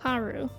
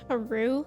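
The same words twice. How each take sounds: First: The stress is on the first syllable. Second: The stress is on the second syllable. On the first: "Like the emphasis on the A" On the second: "like with the emphasis on the U"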